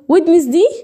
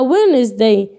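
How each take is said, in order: First: The d sound is pronounced. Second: The d sound is silent. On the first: The speaker calls it wrong. "لا ما بنطقهاش ويدنس" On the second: The speaker calls it right. "دي قاعده ما بنطقوش في الكلمات دي"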